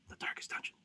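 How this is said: It is said in a whisper.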